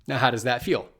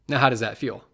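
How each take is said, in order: No difference in how they are said.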